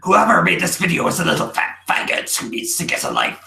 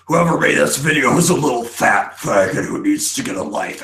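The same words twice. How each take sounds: First: It is read in an imitation of Dave's voice. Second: It is read in the speaker's normal voice.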